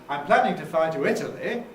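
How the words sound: The pitch falls then rises on the final word. "I could do it with a fall rise"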